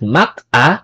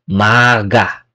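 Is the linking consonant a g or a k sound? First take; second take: k; g. First: A k sound is kept before the vowel. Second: A g sound links into the vowel. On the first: The speaker calls it wrong. "not mak a" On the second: The speaker calls it right. "mak plus a is maga"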